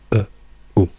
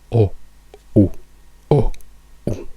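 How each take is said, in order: First: The diphthong starts from a neutral schwa. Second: The diphthong starts from a closed rounded o. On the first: "noi in inglese diciamo e u" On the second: "In americano non usano la schwa, ma usano una o italiana"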